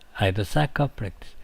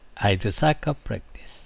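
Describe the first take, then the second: First: The word 'had' shrinks to a 'd' sound. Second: The same.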